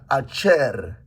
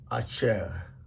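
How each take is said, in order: First: The R is a tapped or rolled Spanish-style R. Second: The R is a throaty French-style R. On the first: "they say this this letter like letter R R R is like Spanish R R" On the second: "They mention this like a French R"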